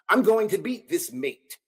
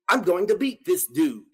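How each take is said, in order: First: It is said in a put-on British accent. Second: It is said in his ordinary American accent.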